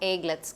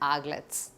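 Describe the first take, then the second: First: The first vowel sounds like 'ay'. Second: The first vowel sounds like 'a'. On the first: The speaker calls it wrong. "இந்த pronunciation is not ஏக்லெட்ஸ் கிடையாது" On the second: The speaker calls it right. "ஆக்லெட்ஸ் அப்படின்னு சொல்லுவோம்"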